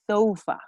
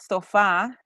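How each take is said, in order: First: The stress is on the first syllable. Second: The stress is on the second syllable. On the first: The speaker calls it right. "they always stress at the first syllable" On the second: The speaker calls it wrong. "It's not sofa"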